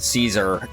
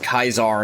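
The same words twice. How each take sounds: First: The name begins with a soft S sound. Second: The name begins with a hard K sound. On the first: This is the modern American pronunciation. The speaker calls it wrong. "not Caesar" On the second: This is the old, original pronunciation. The speaker calls it right. "Like how it's Caesar, in the old way of saying it"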